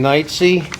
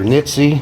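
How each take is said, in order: First: The first vowel sounds like 'night'. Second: The first vowel sounds like 'nit'. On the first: The speaker calls it right. "My name's [name]" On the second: The speaker calls it wrong. "or Nitsy"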